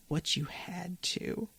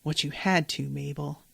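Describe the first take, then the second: First: Much softer, slow, fading repeat; near-whispered echo. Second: Quietly grave, a touch softer; soft solemn. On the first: Dipper repeats his comfort to Mabel, fading hush. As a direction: let the line die away to a hush. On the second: Dipper consoles Mabel, softly solemn. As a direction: lay it down gently and seriously. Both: Retold or imitated. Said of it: "And Dipper says".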